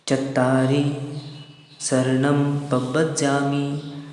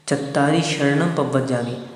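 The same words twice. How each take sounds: First: The word sharanam begins with a plain s sound. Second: The word sharanam begins with an sh sound. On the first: The speaker calls it right. "इसमें सरोते वाला सा है" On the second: The speaker calls it wrong. "नहीं तो बहुत से लोग उच्चारण क्या करते हैं"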